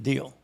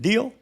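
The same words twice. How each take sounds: First: Settled answer. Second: High rising offer of Deal?; asking question. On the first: The sergeant accepting Valdez's offer, quiet. Sealing the deal. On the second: Valdez offering the sergeant the deal, rising question. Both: Retold or imitated.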